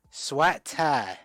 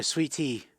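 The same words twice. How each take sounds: First: Exaggerated Mississippi vowels, "Swat tie" for sweet tea; teasing take on a Mississippi Southern accent; mock Mississippi accent. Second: Said in the usual way. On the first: Shown as a demonstration. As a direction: imitate a Mississippi accent, vowels pulled wide open. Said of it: "Is that how they say it, Mississippi". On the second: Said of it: "Is that how they say it".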